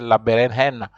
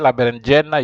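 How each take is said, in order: First: The j is sounded like an h. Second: The j is sounded like an English j. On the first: The speaker calls it right. "J is pronounced like H. You have to say la berenjena" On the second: The speaker calls it wrong. "you don't say la berenjena"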